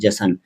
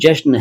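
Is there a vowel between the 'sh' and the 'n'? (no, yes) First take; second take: yes; no. First: A vowel is inserted between 'sh' and 'n'. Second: The 'sh' and 'n' are joined without a vowel. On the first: The speaker calls it wrong. "इसको कई लोग जशन कह देते हैं" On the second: The speaker calls it right. "लेकिन ये जश्न है"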